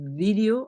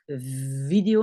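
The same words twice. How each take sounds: First: The word begins with a b-like sound. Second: The word begins with a clear v sound. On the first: The speaker calls it right. "plutôt comme un B" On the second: The speaker calls it wrong. "on ne va pas dire vidéo"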